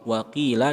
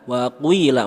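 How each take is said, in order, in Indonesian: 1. Vokal setelah q adalah 'i' polos. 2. Vokal setelah q dimulai dengan bibir membulat.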